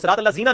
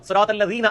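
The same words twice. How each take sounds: First: The consonant is a hard 'z' sound. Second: The consonant is a soft 'th' sound. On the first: The speaker calls it wrong. "वो सिरात अल्लज़ीना नहीं है" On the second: The speaker calls it right. "सूरत फातिहा में ये जाल ही है"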